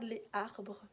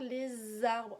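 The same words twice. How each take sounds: First: No z sound links les to arbres. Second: A z sound links les to arbres. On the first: The speaker calls it wrong. "on ne dit pas ça" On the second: The speaker calls it right. "on fait une liaison"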